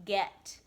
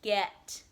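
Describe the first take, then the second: No difference in how they are said.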